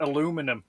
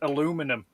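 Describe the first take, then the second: First: It is said with the American pronunciation. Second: It is said with the American pronunciation.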